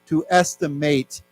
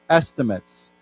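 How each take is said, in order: First: The last syllable has a full long a vowel. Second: The last syllable has a weak, reduced vowel. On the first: It is used as a verb. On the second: It is used as a noun.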